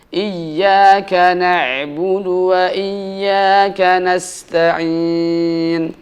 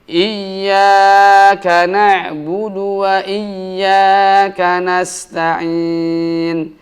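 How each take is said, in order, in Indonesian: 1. Huruf mad setelah ya dibaca sebentar. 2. Huruf mad setelah ya dibaca terlalu panjang. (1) "harus ditepatkan dua harokat" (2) "terlalu memanjangkan mad dhabi'i"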